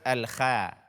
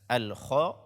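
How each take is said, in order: First: The kh sound is pronounced thin and light. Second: The kh sound is pronounced thick and heavy. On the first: The speaker calls it wrong. "membaca kho dengan tipis" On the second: The speaker calls it right. "sempurnakanlah ketebalan pada huruf kho ini"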